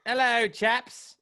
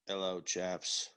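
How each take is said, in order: First: Slow, high posh British greeting; slow mock-British hello; mock British accent. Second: Slow, low British greeting; lower, slower mock-British hello. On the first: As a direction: ham up a fake British toff. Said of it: "he came back and he was like". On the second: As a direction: drone it like a dull British bloke. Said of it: "He was more like".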